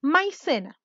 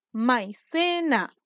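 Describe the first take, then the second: First: Said in the usual way. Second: MAICENA very slowly, split as mai, ce, na; teacher sounding out MAICENA as mai-ce-na; syllable by syllable. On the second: Shown as a demonstration. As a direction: break MAICENA into three drawn-out syllables. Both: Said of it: "Tenemos tres sílabas".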